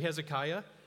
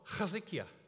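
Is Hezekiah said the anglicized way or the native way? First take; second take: anglicized; native. First: The name is said the familiar anglicized way. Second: The name is said the native speaker's way. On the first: This is the speaker's own habitual way of saying it. The speaker calls it wrong. "I'm going to continue to say Hezekiah" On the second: This is how it is said in its own language. The speaker calls it right. "you and I, we say it differently. And I said, but you say it correctly"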